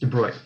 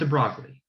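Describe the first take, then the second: First: The name has a French pronunciation. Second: The name is read as it is spelled. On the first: The speaker calls it right. "The letters are not pronounced the way they might appear. It's de Broglie" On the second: The speaker calls it wrong. "not de Broglie"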